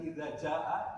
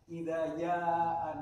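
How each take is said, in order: First: The second word begins with a J sound. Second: The second word begins with a Y sound. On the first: This is the standard pronunciation of the letter. The speaker calls it right. "bukan idza ja'a" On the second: This reflects a regional speech habit. The speaker calls it wrong. "huruf jim itu jadi ya"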